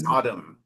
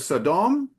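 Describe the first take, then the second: First: The stress falls on the first syllable. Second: The stress falls on the second syllable. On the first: The speaker calls it right. "in English, often the emphasis comes up sooner" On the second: The speaker calls it wrong. "you pronounced it a little bit with a Brazilian uh, pronunciation. Instead of Sodom"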